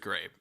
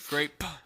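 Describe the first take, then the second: First: The final p is weak and barely heard. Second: The final p is strongly popped and clearly heard. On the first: "Did you say grape or great?" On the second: "I'll put the extra in the mic"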